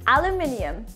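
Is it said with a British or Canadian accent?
British. It is said the British way, aluminium.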